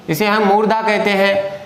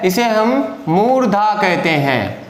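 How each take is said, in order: First: Said in the usual way. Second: Slow, with मूर्धा weighted and drawn out; stress on मूर्धा. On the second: Shown as a demonstration. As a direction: dwell on मूर्धा so students catch it.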